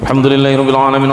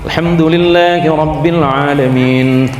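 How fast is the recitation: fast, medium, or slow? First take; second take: fast; medium. First: It is recited very fast without pauses. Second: It is recited at a moderate pace. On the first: "Yang hadir ini yang paling populer"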